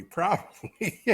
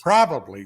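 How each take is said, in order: First: Laughing it out. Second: Said in the usual way. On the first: Real, not acted. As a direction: chuckle through the word. Laughing at vodka joke.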